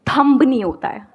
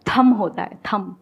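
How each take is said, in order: First: "थंब" with the final b sounded after the m; pronounced B. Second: "थम" ending cleanly on m, no b; silent B. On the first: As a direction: stress "थंब" and let the b be heard. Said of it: "बी silent". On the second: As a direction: close "थम" on the m, leaving off the b. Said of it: "या बी silent". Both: Shown as a demonstration.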